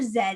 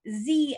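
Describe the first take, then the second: First: The letter is said as zed, Canadian style. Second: The letter is said as zee, American style.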